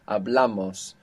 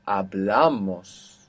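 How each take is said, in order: First: Said in the usual way. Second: Slow hablamos with the stress on "bla"; teacher showing stress, drawn-out hablamos stressed on "bla"; stress on second last. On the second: Shown as a demonstration. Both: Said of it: "so it's still on the second last".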